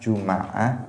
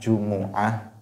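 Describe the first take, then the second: First: An a vowel follows the m sound. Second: A u vowel follows the m sound. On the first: "pakai fathah" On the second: "pakai dhammah"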